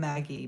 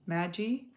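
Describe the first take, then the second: First: The G is hard, like in go. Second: The G is soft, like a J. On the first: "Mine's a hard G" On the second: "Is it a soft G"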